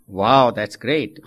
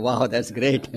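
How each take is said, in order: First: Amazed wow. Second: Laughing wow. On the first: Delighted old man in heaven. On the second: Everyone thinks, while laughing. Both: Acted.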